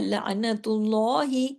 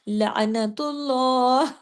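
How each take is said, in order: First: It ends with a short 'i' vowel after 'h'. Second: It stops on the 'h' with no final vowel. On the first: "जैसे लिखा है ना" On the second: "हा की जेर को रोक दिया हमने"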